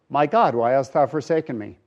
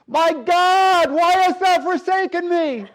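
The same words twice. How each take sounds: First: It is said calmly, like a plain answer. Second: It is cried out in agony.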